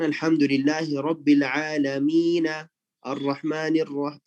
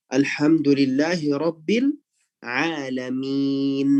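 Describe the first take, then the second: First: "Alamina" with the final a voiced, read straight on; "Rabbil Alamina" carried into the next word, no stop; full vowel ending. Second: "Alamin" slowed and closed on n, no final vowel; drawn-out "Rabbil Alamin" stopping dead on the n; sukun at the end. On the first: Teacher showing the wrong connected reading to contrast. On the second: Teacher reading the verse to show the paused ending. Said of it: "kita bacanya dengan sukun". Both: Shown as a demonstration.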